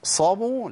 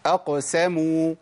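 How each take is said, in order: First: أقصبوا with a heavy, emphatic ص instead of س; أقصبوا said wrongly, with a dark rounded ص sound. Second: Slow أقسموا with a light, clear س and lips slightly spread; correct light s. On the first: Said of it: "لا،". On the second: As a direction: stretch أقسموا out and keep the س thin after the ق. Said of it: "كل اللي عملته ابتسامة بسيطة بعد القاف". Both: Shown as a demonstration.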